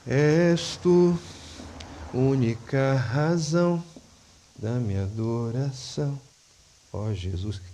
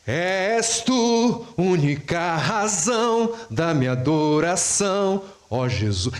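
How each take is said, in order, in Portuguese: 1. É dito com voz baixa, com pouca energia. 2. É dito com voz alta, com alegria e intensidade. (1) "Não, não é assim" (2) "É assim, gente. É com voz alta, é com alegria, é com intensidade"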